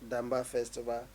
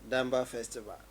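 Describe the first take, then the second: The two takes are said the same way.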